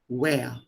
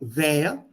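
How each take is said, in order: First: It begins with a rounded-lip W sound. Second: It begins with a lip-to-teeth V sound. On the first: The speaker calls it right. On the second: The speaker calls it wrong.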